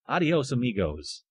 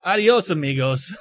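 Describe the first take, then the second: First: Rolled Spanish adios, amigos; Spanish accent. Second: Put-on Spanish accent. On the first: Pretend. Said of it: "Let's say it better". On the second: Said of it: "I should say something in, uh, Spanish".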